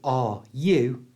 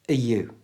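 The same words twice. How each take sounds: First: The word 'are' keeps a full R sound. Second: The word 'are' is reduced to a weak uh. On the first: The speaker calls it wrong. "instead of saying are you" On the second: The speaker calls it right. "we change the R to a schwa sound, the little uh sound"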